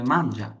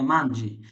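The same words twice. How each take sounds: First: মানজা said with a final a, the right form; মানজা clearly ending on an a sound. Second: মানজি said with a final i, the wrong form; মানজি with an i sound at the end. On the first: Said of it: "তখন বলতে হবে". (সঠিক রূপ মানজা, শেষে আ উচ্চারণ) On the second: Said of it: "তখন বললে হবে না". (ভুল রূপ মানজি, শেষে ই উচ্চারণ) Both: Shown as a demonstration.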